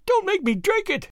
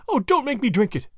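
First: Shriek. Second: Higher-pitched pleading moan. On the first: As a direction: let the plea rise into a thin shriek. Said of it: "Her voice rose to a shriek". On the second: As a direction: beg desperately, moaning the words. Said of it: "she moaned". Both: A narrator's reading.

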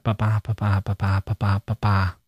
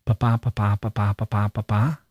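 First: Five low "ba-ba" pulses, the last one falling; falling close on the beat. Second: Five "ba-ba" pulses, the last one rising like a question; lift at the end. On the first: Teacher showing the wrong tune, last "ba-ba" falls. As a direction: end the "ba-ba" line closed, like a statement. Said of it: "It's a question". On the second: Teacher showing the line as a question, last "ba-ba" rises. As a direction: lift the final "ba-ba" upward. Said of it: "Our voices lift at the end". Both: Shown as a demonstration.

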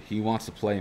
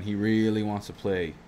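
First: Said in the usual way. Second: Really leaned on, slower, falling at the end; slow emphatic "really"; stress on really. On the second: Shown as a demonstration. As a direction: draw out "really" to insist.

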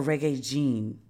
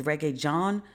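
First: "Jean" with a long ee vowel; "Jean" drawn out, falling at the end; Jean pronunciation. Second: "John" said like the English name, ending up; unsure "John", left rising; John pronunciation. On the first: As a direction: slowly offer "Jean" as the alternative. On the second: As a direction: try "John" with an English vowel. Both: Shown as a demonstration. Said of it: "I don't know if it's".

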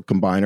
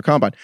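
First: "combine" said com-BINE, as the verb; stress on second syllable. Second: "combine" said COM-bine, as the noun; stress on first syllable. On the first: On the second syllable to show it's. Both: Shown as a demonstration.

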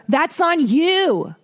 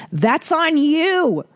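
First: High, slow, drawn-out put-down again; mock scolding. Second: High, slow, drawn-out put-down; sing-song slow scolding, high; mock scolding. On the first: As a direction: lean on you, slow and high. Repeats the scolding. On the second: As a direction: wag a finger at the baker. Scolding the British baker.

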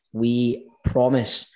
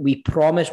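First: We promise drawn out slowly, each word weighted; slow emphatic promise. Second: Said in the usual way. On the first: Real, not acted. Host repeating to listeners, slow earnest promise. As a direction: stretch out We promise to mean it.

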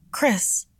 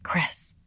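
First: Calling out. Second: Whispered Chris, breathy and hushed; urgent whisper. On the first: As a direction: call Chris, in alarm. Urgent call to friend. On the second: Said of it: "she whispered urgently". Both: A narrator's reading.

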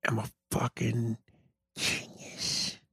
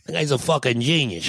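First: Breathy whispered boast, very soft; hushed, low self-praise. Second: Said in the usual way. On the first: Pretend. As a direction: whisper "fucking genius" like a secret. Quiet self-praise before repeating it.

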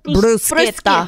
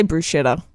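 First: Slow bruschetta, broo-SKET-ta; correct Italian pronunciation. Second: Bruschetta said casually as broo-SHET-a; soft "sh" in bruschetta; everyday sh pronunciation. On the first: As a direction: draw out bruschetta with a hard "sk". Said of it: "How are you meant to say it?". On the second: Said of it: "I just say bruschetta". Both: Shown as a demonstration.

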